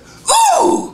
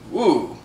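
First: The ooh is loud and distinct. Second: The ooh is quiet and hard to hear.

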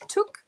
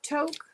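First: The vowel sounds like 'oo', rhyming with 'look'. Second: The vowel sounds like 'oh', rhyming with 'joke'. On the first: The speaker calls it right. "Is that how you pronounce that?" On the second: The speaker calls it wrong. "Not Toke"

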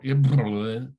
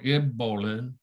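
First: It has a lip trill and a lateral flap. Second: It has a plain b and a lateral flap.

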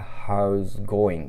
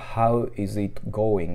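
First: The words run together into one linked chunk. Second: Each word is said separately and fully.

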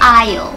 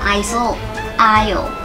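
First: The word is said without an s sound. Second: The word is said with an s sound. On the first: The speaker calls it right. "เรียกว่า" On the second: The speaker calls it wrong. "ไม่ใช่"

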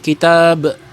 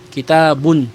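First: The word ends on the 'b' sound. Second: The word ends with a final 'un' sound. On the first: The speaker stops after this word. "kung wala siyang karugtong at mag-stop ka lang" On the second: The speaker continues on to another word. "binibigkas lamang siya kapag ka ituloy mo yung salita mo"

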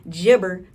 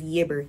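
First: The word begins with a J sound. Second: The word begins with a Y sound. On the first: This is the form sticklers for correctness would use. "Jibber for the fucking grammar police" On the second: This is the speaker's own casual way of saying it. "I pronounce it as Yibber"

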